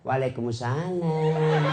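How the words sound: The voice is soft, tender and sultry.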